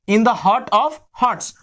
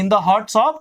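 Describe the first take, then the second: First: Slow, careful corrected phrase "in the heart of hearts"; slow correction. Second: Said in the usual way. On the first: Shown as a demonstration. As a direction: fix the slip slowly. (धीरे से सुधारा गया "in the heart of hearts")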